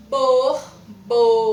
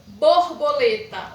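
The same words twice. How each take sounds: First: BORBOLETA loud and slow as BOR, BO, LE, TA; teacher chopping BORBOLETA into four projected syllables. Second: BORBOLETA loud and slow, but joined up; emphatic whole word. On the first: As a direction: hammer out BORBOLETA in four separate beats. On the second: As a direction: announce BORBOLETA clearly as one word. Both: Shown as a demonstration. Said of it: "vamos falar ela por sílabas".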